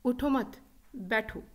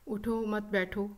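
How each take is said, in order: First: It has a pause after the first word. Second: It is said flat, without any pause. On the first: The listener is told to stay seated. "the meaning changes altogether" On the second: The meaning is unclear. "अपने लहजे के उतार चढ़ाव के बगैर"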